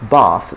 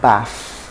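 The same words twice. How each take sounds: First: The final sound uses the tongue against the teeth. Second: The final sound uses the lip against the teeth. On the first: The speaker calls it right. "it has to be a dental fricative" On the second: The speaker calls it wrong. "So not the labiodental fricative"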